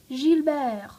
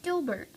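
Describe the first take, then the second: First: The name has a French pronunciation. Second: The name has an English pronunciation.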